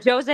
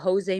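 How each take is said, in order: First: The name begins with a J sound. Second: The name begins with an H sound. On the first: The speaker calls it right. "when it's Portuguese, you pronounce the J" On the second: The speaker calls it wrong. "so that's my fault. When it's Spanish, you don't"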